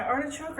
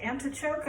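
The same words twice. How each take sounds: First: Said in the usual way. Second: Antichoke with an n in place of the r; playful antichoke joke on ants; punning pronunciation. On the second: Shown as a demonstration. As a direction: swap in the pun antichoke, an-ti-choke. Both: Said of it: "or we can say antichoke".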